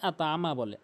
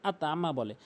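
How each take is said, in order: The two takes are said the same way.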